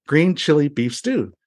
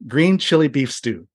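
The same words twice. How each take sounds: First: "stew" stressed, said slowly and clearly; slow repeat. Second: Said in the usual way. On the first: Retold or imitated. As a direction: spell the dish out slowly for her. Repeats dish after wife's "What?.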